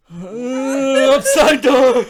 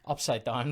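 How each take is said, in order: First: High, loud, very stretched-out laughing words; laughing drawl. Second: Said in the usual way. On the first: Real, not acted. Drawn-out repeat, bursting into laughter.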